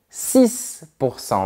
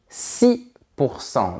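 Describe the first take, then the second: First: The final consonant of six is pronounced. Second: The final consonant of six is silent. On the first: "tu peux prononcer la dernière lettre" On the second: "ou pas"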